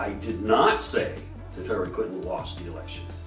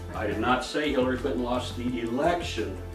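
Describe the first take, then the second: First: The word 'say' carries the main stress. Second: The word 'election' carries the main stress. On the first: It was implied but not said outright. "I may have implied it" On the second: She lost something else. "What am I talking about? Something else"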